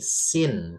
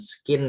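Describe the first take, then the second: First: The c is silent, with no k sound. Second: The c is sounded as a k after s. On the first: The speaker calls it right. "tapi scene" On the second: The speaker calls it wrong. "Ini C-nya nggak usah dibaca guys ya, bukan skin gitu bukan ya"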